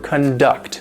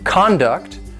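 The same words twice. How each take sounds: First: The stress is on the second syllable. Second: The stress is on the first syllable. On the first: It means to organize or lead an activity. "The stress is on the second syllable" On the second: It names somebody's behavior. "the noun conduct"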